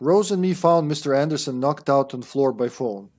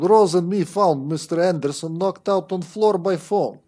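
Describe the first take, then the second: First: It is read in the speaker's ordinary accent. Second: It is read in a put-on Russian accent. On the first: The speaker calls it wrong. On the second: The speaker calls it right.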